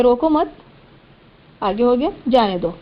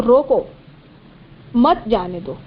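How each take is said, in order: First: روکو مت, then a clear break before جانے دو; pause after مت. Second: روکو, then a clear break before مت، جانے دو; pause after روکو. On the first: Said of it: "جب آپ یہاں پر کر دیں گے". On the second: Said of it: "دوسرے طریقے سے دیکھیں". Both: Shown as a demonstration.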